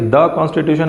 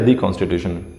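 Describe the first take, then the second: First: 'The' is said with a short 'thuh' sound. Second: 'The' is said with a long 'thee' sound. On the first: "ये द constitution है" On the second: "या दी constitution?"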